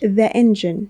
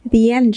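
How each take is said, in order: First: 'The' is said with a short 'uh' vowel. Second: 'The' is said with a long 'ee' vowel. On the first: The speaker calls it wrong. "مش the engine" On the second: The speaker calls it right. "so the engine مش"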